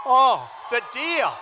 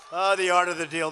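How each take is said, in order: First: Loud, slow, savoring "Oh, the deal"; relishing exclamation. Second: Said in the usual way. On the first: Real, not acted. To the crowd, savoring his deal, loud and slow. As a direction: draw out "Oh" with gusto.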